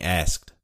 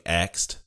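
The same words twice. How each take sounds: First: "asked" with the s before the k; slowly, carefully say "asked" as "ass-kt". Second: "axed" with the k before the s; misheard as axed. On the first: Speaker correcting what others hear, careful "asked" with s before k. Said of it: "I'm trying really hard to say it". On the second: Explaining to listeners how others hear it, "axed" with k before s. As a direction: say "axed" as "aks-t", k sound first. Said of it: "it sounds like we're saying". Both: Shown as a demonstration.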